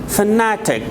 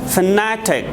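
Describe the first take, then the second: First: It is said with a British accent. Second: The same.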